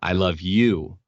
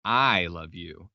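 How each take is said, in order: First: "I love you" with weight on "you", louder and falling; stress contrast. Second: Slow and lean on "I" in "I love you"; stress contrast. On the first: Showing a meaning change by stressing "you". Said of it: "the easiest example that everyone always uses is". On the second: Demonstrating the other meaning by stressing "I". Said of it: "those are two different meanings". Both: Shown as a demonstration.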